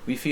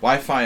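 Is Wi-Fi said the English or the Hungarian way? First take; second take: Hungarian; English. First: It is said with a Hungarian pronunciation. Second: It is said with a Western English pronunciation. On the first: "Wi-Fi is the Hungarian pronunciation" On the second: "Wi-Fi in the West"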